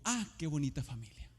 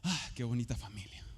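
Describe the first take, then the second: First: It is said sincerely, without sarcasm. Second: It is said with a sarcastic tone.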